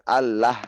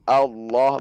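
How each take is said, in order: First: The l is pronounced light and thin. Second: The l is pronounced heavy and thick. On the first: The speaker calls it wrong. "bukan Allah" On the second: The speaker calls it right. "lamnya ditebalkan"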